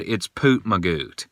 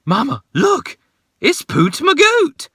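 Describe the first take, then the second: First: Said in the usual way. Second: Put-on high excited child voice, much higher; imitating little daughter. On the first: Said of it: "She wasn't scared. She just said". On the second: Dad imitating his daughter spotting Poot Magoot, high excited child voice. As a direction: squeal it like a thrilled little girl. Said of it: "my daughter stood up and went".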